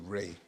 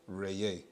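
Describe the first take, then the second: First: The name is said in a shortened form. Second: The name is said in its fuller, longer form. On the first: This is the form that developed over time. "it's been shortened over time to Ray" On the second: This is the original form of the name. "actual pronunciation of or the sound is Ray. That's the actual tone"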